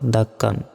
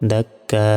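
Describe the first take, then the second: First: The word ends with a short an sound. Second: The word ends with a long drawn a vowel. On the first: The reader continues without stopping. "কাপ আলিফ 2 জবর কান" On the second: The reader stops on this word. "থামলে একটা জবরের উচ্চারণ হবে"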